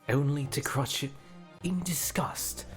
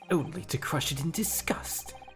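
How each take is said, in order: First: The line is delivered in a quiet, subdued way. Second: The line is delivered in a big, intense way. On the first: The speaker calls it right. "this guy's more subdued" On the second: The speaker calls it wrong. "I want to go full Edgeworth"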